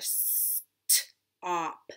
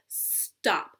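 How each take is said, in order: First: The sounds are stretched apart with a break. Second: The sounds are blended smoothly into one word. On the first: "I said all of those individually" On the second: "now I'm going to put them together"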